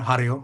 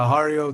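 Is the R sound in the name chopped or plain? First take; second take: chopped; plain. First: The R is chopped short. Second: The R is said in a plain way.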